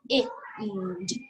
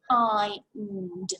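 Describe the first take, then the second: First: The vowel is short, as in 'it'. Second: The vowel is long, like 'eye'. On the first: It is not a real word. The speaker calls it wrong. "if I said it with an it sound, it won't quite make sense" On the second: It is the real word. The speaker calls it right. "so it must be the I sound that we're saying"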